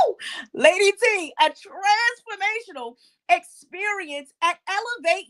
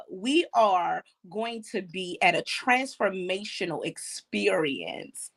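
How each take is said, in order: First: High, louder, thrilled announcement; excited hype. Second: Measured announcement. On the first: Host hypes the event to Lady T, excitedly. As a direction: whoop it up to your co-host. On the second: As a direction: lower the voice and draw out the last word. First, measured announcement of the event. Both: Real, not acted.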